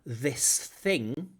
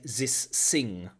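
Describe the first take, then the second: First: The th sounds are said as real th. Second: The th sounds are said as z and s.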